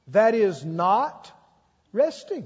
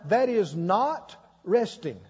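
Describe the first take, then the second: First: It is said very slowly. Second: It is said at a normal speed.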